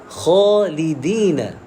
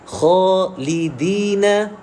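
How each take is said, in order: Both takes have the same delivery.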